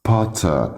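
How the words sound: The final r sound is dropped. "بالبريش اسمها"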